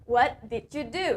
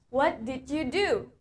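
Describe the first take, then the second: The two takes are said the same way.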